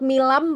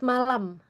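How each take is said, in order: First: The first vowel sounds like 'i'. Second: The first vowel sounds like 'a'. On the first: The speaker calls it wrong. "Not milam" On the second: The speaker calls it right. "but malam"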